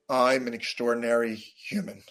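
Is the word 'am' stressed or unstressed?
unstressed. The word am is not stressed.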